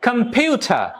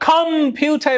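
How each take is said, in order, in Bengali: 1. Stress মাঝের সিলেবলে আছে। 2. Stress মাঝের সিলেবলে নেই। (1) "মাঝেরটাই" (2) "প্রাইমারি স্ট্রেস আমি কম্পিউটার এরকম বলবো না"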